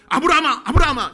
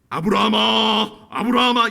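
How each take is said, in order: First: The call is fast, loud and urgent. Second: The call is slow and unhurried. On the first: The act must be stopped at once. The speaker calls it right. "굉장히 다급한 목소리로 ... 이렇게 빠르게" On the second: There is no hurry to stop the act. The speaker calls it wrong. "이렇게 했으면 늦어요"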